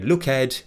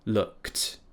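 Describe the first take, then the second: First: The ending is a separate 'ed' syllable. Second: The ending is a short unvoiced 't' sound. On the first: The speaker calls it wrong. "We didn't say look ed" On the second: The speaker calls it right. "We have t, which is an unvoiced consonant"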